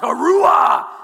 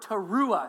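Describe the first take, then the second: First: The word is shouted loudly like a war cry. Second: The word is said calmly at normal volume.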